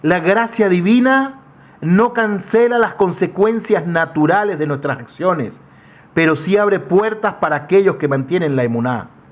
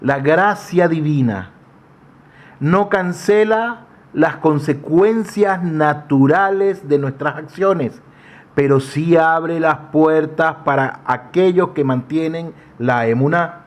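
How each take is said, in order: First: It is said at normal speed. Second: It is said slowly.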